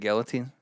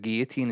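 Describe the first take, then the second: First: The word is pronounced the English way. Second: The word is pronounced the French way. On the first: The speaker calls it wrong. "instead of guillotine" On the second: The speaker calls it right. "it should be here comes a guillotine"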